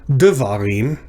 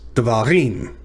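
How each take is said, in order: First: The stress is on the first syllable. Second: The stress is on the last syllable. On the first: The speaker calls it wrong. "So it's not devarim" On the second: The speaker calls it right. "it's devarim. So the emphasis is on the last syllable"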